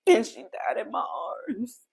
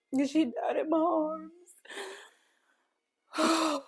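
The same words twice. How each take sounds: First: Said in the usual way. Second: Higher, tearful voice cracking on the words; voice breaking. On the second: Real, not acted. Mother repeating to viewers that her baby died, voice breaking. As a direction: let it break as the tears come.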